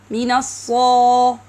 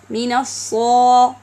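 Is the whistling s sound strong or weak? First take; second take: weak; weak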